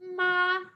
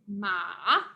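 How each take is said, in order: First: The pitch stays level and steady throughout. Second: The pitch moves instead of staying level. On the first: The word means mom. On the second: The word means horse.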